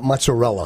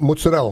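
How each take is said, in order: First: It is said in standard American style. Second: It is said in Italian-American Jersey style. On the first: The speaker calls it wrong. "not mozzarella" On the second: The speaker calls it right. "it's mozzarella"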